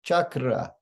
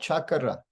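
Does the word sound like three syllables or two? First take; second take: three; three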